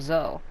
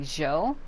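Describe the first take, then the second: First: The name is said with a 'z' sound. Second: The name is said with a 'j' sound. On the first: The speaker calls it right. "instead of Zoe" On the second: The speaker calls it wrong. "as if though there's an H in between the Z and the O"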